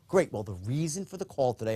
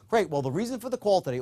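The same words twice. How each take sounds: First: It is said with a slightly lowered pitch. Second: It is said at a normal pitch.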